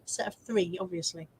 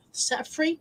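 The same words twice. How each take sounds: First: "Set of three" falling and soft on "three", then a quiet "obviously"; falling statement. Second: "Set of three?" rising on "three" as a question; questioning rise. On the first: Confirms the comment. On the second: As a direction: ask "Set of three?" with "three" lifting up. Checking a viewer's comment. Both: Real, not acted.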